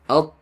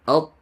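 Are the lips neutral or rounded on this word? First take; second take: neutral; neutral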